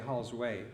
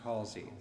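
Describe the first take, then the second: First: The name is said as Hall's Way. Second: The name is said as Halsey. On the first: The speaker calls it wrong. "it's spelt like you should say Hall's Way" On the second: The speaker calls it right. "but it's pronounced Halsey"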